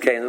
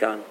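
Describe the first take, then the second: First: The vowel is a gliding 'ay' sound. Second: The vowel is a plain open 'ah' sound. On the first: The speaker calls it right. "The correct pronunciation is kain" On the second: The speaker calls it wrong. "most people call it a kan"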